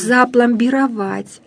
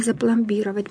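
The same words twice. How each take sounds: First: "Запломбировать" slowly, stressed on final ВАТЬ; drawn-out "Запломбировать", punching the last syllable; correct stress. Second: "запломбировать" wrongly stressed on БИ. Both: Shown as a demonstration. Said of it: "а не".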